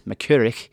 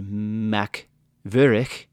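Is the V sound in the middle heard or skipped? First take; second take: skipped; heard. First: The V sound in the middle is skipped. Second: The V sound in the middle is pronounced.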